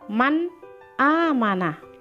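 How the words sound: There is a pause between the two words. The speaker calls it wrong. "jangan man amana, tidak boleh seakan-akan ada tanda wakaf"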